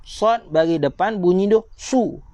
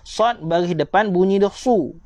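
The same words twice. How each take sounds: The two takes are said the same way.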